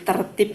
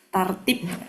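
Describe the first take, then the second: First: The first vowel is a weak schwa. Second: The first vowel is a full open 'a'. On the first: This is how local speakers adapted it. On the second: This is the original Arabic form.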